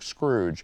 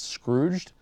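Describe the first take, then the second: First: The word is said fast, dropping the final d. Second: The word is said carefully with the final d. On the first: "you get to talking fast and it's like Scrooge" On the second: "I need to pronounce that more carefully"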